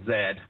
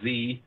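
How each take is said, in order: First: The letter is said the British way, zed. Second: The letter is said the American way, zee.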